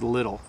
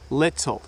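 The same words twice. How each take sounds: First: The middle sound is a soft D. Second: The middle sound is a clear T. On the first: It is the usual everyday way. "the T T sound in the word little, we often say as little" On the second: It suits public speaking or reading a poem. "We don't often say little"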